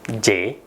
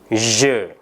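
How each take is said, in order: First: Je is said with an Indonesian-style sound. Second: Je is said with the French sound. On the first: The speaker calls it wrong. "ini pengucapan-pengucapan yang kurang tepat" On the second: The speaker calls it right. "Pengucapan yang tepat adalah je"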